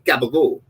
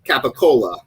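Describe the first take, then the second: First: Said Italian-American style, clipped with voiced consonants. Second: Said plainly, with every syllable fully pronounced. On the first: "you kind of say" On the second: "someone without the Italian accent would just be like"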